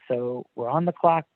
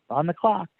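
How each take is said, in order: First: It is said in a flat, pressured tone. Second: It is said in a playful, upbeat tone.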